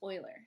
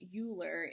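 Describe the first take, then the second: First: The name begins with an 'oy' sound. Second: The name begins with a 'you' sound. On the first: The speaker calls it right. "it's pronounced Euler. So like the Edmonton Oilers" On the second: The speaker calls it wrong. "even though it has this spelling, it's not pronounced Euler"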